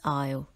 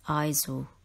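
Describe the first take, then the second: First: The word is said with no S sound. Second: The word is said with an S sound. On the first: The speaker calls it right. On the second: The speaker calls it wrong.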